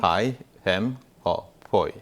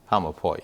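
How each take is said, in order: First: Said slowly, each word separate. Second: Said fast, the words run together. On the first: "천천히 보여주는 거죠" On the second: "빠르게 연결하면"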